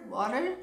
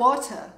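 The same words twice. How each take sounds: First: The T in the middle is soft. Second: The T in the middle is strong. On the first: "Já bych asi řekla water" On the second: "Tak oni řeknou water. Je tam velice silný T"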